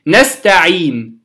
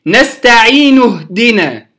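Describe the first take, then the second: First: نستعين stopped on a silent نون with the ي lengthened; stopping with sukun. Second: نستعين اهدنا joined, the ي of نستعين held two counts; natural madd in connection. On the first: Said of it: "سأقف على نستعين". (الوقف على نستعين بالسكون) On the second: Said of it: "لما وصلته كان مدا طبيعيا". (وصل نستعين اهدنا بمد طبيعي) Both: Shown as a demonstration.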